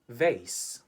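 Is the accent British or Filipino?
Filipino. Spoken with a Filipino English accent. "In the Philippines, we say vase"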